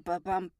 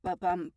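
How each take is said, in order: No difference in how they are said.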